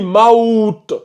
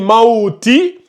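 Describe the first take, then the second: First: The word ends on a bare consonant. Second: The word ends with a full final vowel. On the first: The reader pauses at this point. "on le lit" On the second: The reading continues without stopping. "Au lieu de dire"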